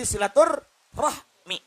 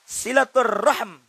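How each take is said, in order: First: The word ends with an i vowel after m. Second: The word ends on the m with no vowel. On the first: "Karena dikasrokan jadi silaturrahmi" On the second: "Karena mimnya disukunkan"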